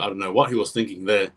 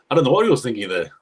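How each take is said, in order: First: Said in the usual way. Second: Exasperated quick repeat; baffled, faster and louder. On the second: Real, not acted. Commentator to viewers, baffled by the offload, fast and louder. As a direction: rattle it off, louder, in disbelief.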